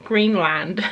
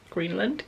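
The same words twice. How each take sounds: First: Said in the usual way. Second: Laughing, puzzled question. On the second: Shown as a demonstration. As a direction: ask it back with a laugh. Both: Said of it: "we watched Greenland".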